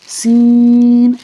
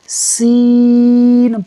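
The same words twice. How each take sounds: First: It is said with a nasal sound. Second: It is said through the mouth, not nasal. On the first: The speaker calls it wrong. "नाक से नहीं पढ़ना" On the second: The speaker calls it right. "मुंह से पढ़ना है"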